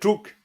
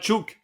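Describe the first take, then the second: First: The word is said with a slight R sound. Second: The word is said without any R sound. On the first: The speaker calls it right. "il y a un petit R dedans" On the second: The speaker calls it wrong. "C'est pas chuk"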